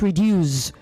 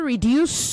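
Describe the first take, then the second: First: The final consonant is a buzzing z sound. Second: The final consonant is a hissing s sound. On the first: The speaker calls it wrong. "not reduce. not R E D U Z E" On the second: The speaker calls it right. "It is also reduce, The word is R E D U C E"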